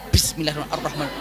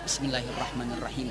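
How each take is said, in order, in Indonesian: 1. Diucapkan dengan cara berlebihan, penuh tekanan. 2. Diucapkan dengan cara biasa, wajar. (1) "Jangan gitu" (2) "Tapi biasa saja bunda"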